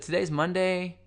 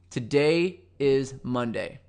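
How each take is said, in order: First: The voice rises at the end. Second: The voice falls at the end.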